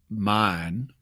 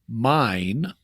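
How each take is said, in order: First: The word is said in a broad Southern accent. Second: The word is said in a standard accent. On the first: "in Southern English, more broadly, you would get mine" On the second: "in regular English, if you said mine"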